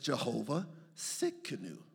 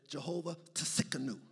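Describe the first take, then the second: First: The second word begins with an S sound. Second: The second word begins with a T sound. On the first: The speaker calls it right. "No, it's Jehovah Sikanu. The T is silent" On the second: The speaker calls it wrong. "You be trying to say Jehovah Tsikanu"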